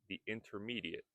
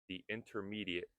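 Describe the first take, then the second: No difference in how they are said.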